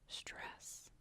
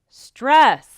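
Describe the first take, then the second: First: The word is said quietly. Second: The word is said loudly. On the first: "Low volume" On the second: "A high volume"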